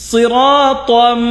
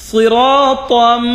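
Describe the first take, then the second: Both takes have the same delivery.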